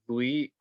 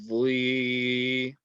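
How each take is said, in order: First: The consonant is said with a w-like glide. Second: The consonant is said without a w-like glide. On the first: The speaker calls it wrong. "You're putting that wow sound in" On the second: The speaker calls it right. "It's going to be vli"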